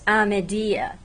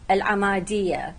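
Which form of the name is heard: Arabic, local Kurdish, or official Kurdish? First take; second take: local Kurdish; Arabic. First: The name is said in local Kurdish form. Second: The name is said in its Arabic form. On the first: "in the local Kurdish pronunciation of the city itself" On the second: "In Arabic"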